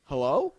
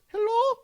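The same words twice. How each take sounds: First: Said in the usual way. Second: A much higher, louder lady's questioning hello. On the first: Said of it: "I'm like". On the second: Retold or imitated. Drive-thru clerk calling out, high questioning hello. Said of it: "she goes".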